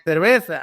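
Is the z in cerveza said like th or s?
s. It is said with a Mexican-style s sound.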